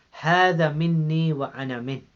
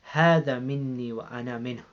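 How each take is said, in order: First: هذا مني وأنا منه said again a little louder, each word weighted; solemn emphatic repeat of هذا مني وأنا منه; repeated with emphasis. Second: Said in the usual way. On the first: Shown as a demonstration. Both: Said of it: "now listen to the wordings".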